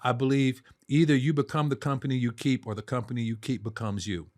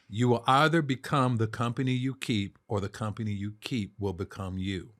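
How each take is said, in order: First: It is said fast. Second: It is said slowly.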